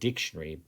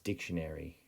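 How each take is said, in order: First: The vowel before r is a reduced schwa. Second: The vowel before r sounds like air. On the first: The speaker calls it wrong. "Now I know we say the word dictionary" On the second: The speaker calls it right. "but if we say it properly, it's dictionary"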